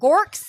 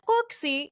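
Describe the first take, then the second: First: It is said in a hard American accent. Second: It is said in a soft British-style accent. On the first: This is how an outsider says the name. The speaker calls it wrong. "I'm here like Gorks, like the worst thing" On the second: This is how the family says the name. The speaker calls it right. "they're all like Gorksy, it's like sounds lovely"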